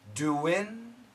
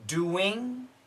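First: The word ends with a short 'in' sound. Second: The word ends with a full 'ing' sound. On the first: "we can say in" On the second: "We can say ing"

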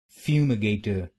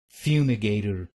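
First: It is said in a British accent. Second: It is said in an American accent.

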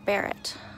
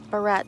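First: It sounds like the gun name Barrett. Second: It sounds like the hair clip word barrette. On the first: "it can be pronounced Barrett, like the Barrett gun" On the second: "I usually pronounce it barrette, like a hair barrette"

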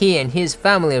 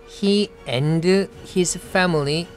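First: The words run together in one breath. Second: The words are separated by small breaks. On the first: The speaker calls it right. "한 호흡에 끊습니다" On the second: The speaker calls it wrong. "이렇게 띄어가지고 얘기 안 하죠"

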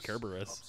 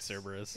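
First: The name begins with a K sound. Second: The name begins with an S sound. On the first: The speaker calls it right. "the C letter is pronounced with a K" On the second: The speaker calls it wrong. "It better not be Cerberus"

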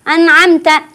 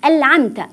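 First: The n is merged into the next sound. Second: The n is pronounced as an l. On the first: "أو يدغم" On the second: "باللام يقول"

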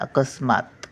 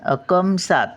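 First: The s sound comes before the m. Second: The s sound comes after the m. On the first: The speaker calls it right. "मग मा पूर्ण येणार, स अर्ध येणार" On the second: The speaker calls it wrong. "हे अकमसात झालं"

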